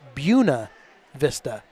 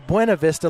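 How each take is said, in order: First: It is said with the local Virginia pronunciation. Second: It is said with the usual, common pronunciation. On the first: The speaker is from that part of Virginia. "they pronounce it Buena Vista" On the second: The speaker is not from that part of Virginia. "like you would normally say"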